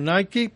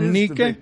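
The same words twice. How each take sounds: First: It is said like the modern brand name. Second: It is said unlike the modern brand name. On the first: The speaker calls it wrong. "mal pronunciado en la cultura moderna como Nike" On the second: The speaker calls it right. "pero es Nike"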